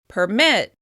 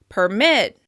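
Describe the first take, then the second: First: The stress is on the second syllable. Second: The stress is on the second syllable.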